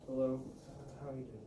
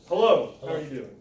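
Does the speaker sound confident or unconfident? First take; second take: unconfident; confident. First: It sounds timid, weak and unconfident. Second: It sounds strong, assured and confident. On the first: The speaker lacks self-confidence. The speaker calls it wrong. "he's not very confident in himself" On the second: The speaker is a powerful figure. The speaker calls it right. "he might see me as a powerful figure"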